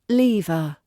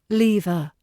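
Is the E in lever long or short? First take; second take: long; long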